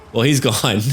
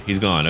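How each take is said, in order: First: Laughing through the words. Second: Said in the usual way. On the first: Real, not acted. Player laughing as the enemy general falls. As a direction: chuckle it out as he drops.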